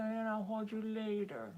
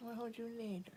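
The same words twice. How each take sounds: First: "And I'll hold you later" voiced, higher, soft cooing; pet talk. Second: "I'll hold you later" whispered soft and high. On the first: Promising her cat cuddles later, voiced cooing "I'll hold you later". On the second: Promising her cat cuddles later, whispered "I'll hold you later". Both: Real, not acted.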